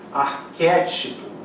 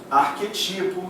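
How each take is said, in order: First: The stress falls on the third-to-last syllable. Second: The stress falls on the second-to-last syllable. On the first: The speaker calls it right. "Arquétipo é proparoxítona" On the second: The speaker calls it wrong. "Pronúncias erradas. A galera pronuncia"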